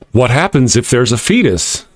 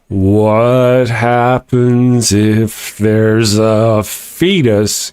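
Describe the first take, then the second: First: The question is spoken at a normal pace. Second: The question is spoken slowly and deliberately.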